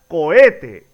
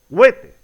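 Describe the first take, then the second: First: The o and e are in separate syllables. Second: The o and e merge into one syllable. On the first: The speaker calls it right. "Se pronuncia" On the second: The speaker calls it wrong. "y no"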